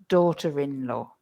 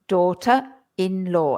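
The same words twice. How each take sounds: First: An R sound links daughter to in. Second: No R sound links daughter to in. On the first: The speaker calls it right. "The R starts to be pronounced again" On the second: The speaker calls it wrong. "the English people don't pronounce it like that"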